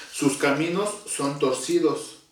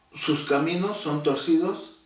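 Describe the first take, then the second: The two takes are said the same way.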